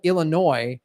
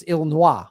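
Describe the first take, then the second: First: Said in the usual way. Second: "Illinois" as il-in-WAH; French pronunciation. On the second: Shown as a demonstration. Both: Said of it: "in French".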